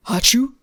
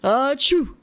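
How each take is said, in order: First: Loud mock achoo sneeze; dad sneeze. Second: Loud booming fake achoo; hammed-up dad sneeze, full voice. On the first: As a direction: belt out a fake sneeze. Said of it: "what is a dad sneeze". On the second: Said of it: "Is that a dad sneeze". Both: Shown as a demonstration.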